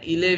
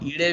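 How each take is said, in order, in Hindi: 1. बीच का व्यंजन ल ध्वनि है। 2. बीच का व्यंजन फ़्लैप वाली ड़ ध्वनि है। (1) "इले भी कह सकते हैं" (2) "हम ईड़े भी कह सकते हैं"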